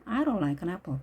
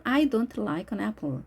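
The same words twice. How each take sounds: First: "don't" as "ron", running straight into "like"; quick connected "I don't like an apple", no T; T dropped. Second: "don't" with an audible released T; T pronounced. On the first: Teacher showing natural fast speech, T left out of "don't". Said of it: "빠르게 말하다 보면 트 발음이". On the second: Teacher allowing alternative to learners, clear T in "don't". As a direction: keep the D and final T in "I don't like an apple". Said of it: "트 발음해도 틀렸다고 말하지는". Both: Shown as a demonstration.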